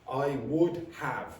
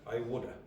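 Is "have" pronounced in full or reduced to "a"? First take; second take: full; reduced. First: Have is pronounced in full as a separate word. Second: Have is reduced to a short uh sound. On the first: "Unless you're being exa- you're exaggerating something or emphasizing something" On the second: "Say that"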